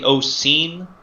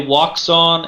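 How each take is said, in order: First: It is said the native Chinese way. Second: It is said the common American way. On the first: The speaker calls it right. "It's actually" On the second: The speaker calls it wrong. "Americans say"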